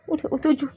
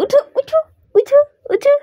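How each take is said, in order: First: Soft wake-up call. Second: Much higher chirpy get up; high sing-song call. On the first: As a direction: coax him up gently. (নরম গলায় ডাকা) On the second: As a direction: sing him awake brightly. (উঁচু সুরে গান গেয়ে ডাকা) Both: Real, not acted. Waking the pet.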